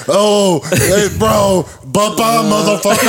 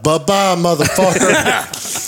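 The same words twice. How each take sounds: First: High-pitched, gleeful mock echo; amused hyped-up onlookers. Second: High, drawn-out mocking goodbye; taunting send-off. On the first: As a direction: imitate buddies hooting a taunt back, pitched way up. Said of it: "was the funniest shit ever". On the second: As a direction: wave them off in a teasing, raised pitch. Taunts seated stranger after standing up.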